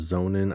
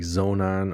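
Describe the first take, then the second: First: The second syllable sounds like 'in'. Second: The second syllable sounds like 'on'. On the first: "I say zone in" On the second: "It's like zone on or zone in"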